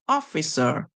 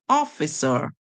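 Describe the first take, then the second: The two takes are said the same way.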